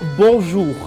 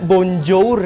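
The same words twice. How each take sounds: First: The final R is a throaty French R. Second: The final R is a plain, non-French R. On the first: The speaker calls it right. "tapi bonjour. ... Jadi R-nya itu er gitu" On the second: The speaker calls it wrong. "bacanya itu bukan bonjour ya"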